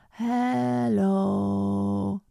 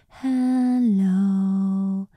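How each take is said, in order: First: The voice is creaky and rough, with vocal fry. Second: The voice is clear and clean, without fry. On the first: The speaker calls it wrong. "Now that is vocal fry" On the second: The speaker calls it right. "Clear and clean"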